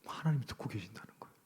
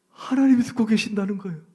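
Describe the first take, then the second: First: Hushed, unvoiced reminder; whispered refrain. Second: Raised, higher and louder declaration; loud refrain. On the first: Preacher whispers to the congregation that God hears. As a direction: breathe it out as a warning. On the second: Preacher proclaims to the congregation that God hears. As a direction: proclaim it to the room. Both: Real, not acted.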